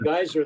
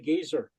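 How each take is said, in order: First: It is said with an American pronunciation. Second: It is said with a British pronunciation. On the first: "we say" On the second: "they say"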